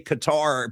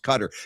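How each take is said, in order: First: The name is said like 'ka-tar'. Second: The name is said like 'cutter'. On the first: The speaker calls it wrong. "it's just people say Qatar" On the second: The speaker calls it right. "I'm pretty sure it's actually pronounced Cutter"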